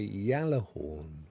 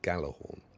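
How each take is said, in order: First: The word begins with a Y sound. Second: The word begins with a hard G sound. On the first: The speaker calls it right. "the J is pronounced like a Y" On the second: The speaker calls it wrong. "we've all said Gallahorn, and we've therefore assumed that the the J is silent"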